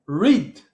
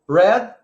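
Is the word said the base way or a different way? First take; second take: base; different. First: The word has its ordinary base pronunciation. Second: The word has a changed, different pronunciation. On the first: It is the participle form. "Ele volta para o normal também" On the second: It is the past form. "o passado é igual à pronúncia, a escrita, mas a pronúncia é diferente"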